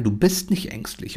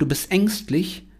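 First: Said in the usual way. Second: Mock accusing voice, lightly higher; someone's taunt. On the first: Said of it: "dann weißt du von vornherein". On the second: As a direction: lightly imitate someone calling you fearful. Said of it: "Wenn dir irgendeiner sagt".

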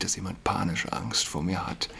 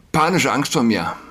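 First: Said in the usual way. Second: Panische punched out higher and louder, the rest falling away; stress on panische. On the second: Shown as a demonstration. Priest repeating the rumour about himself, stressing panische. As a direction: lean hard into panische as you repeat the rumour. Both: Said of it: "Ja, man habe".

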